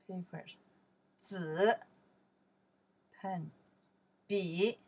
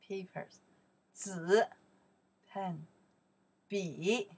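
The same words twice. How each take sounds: The two takes are said the same way.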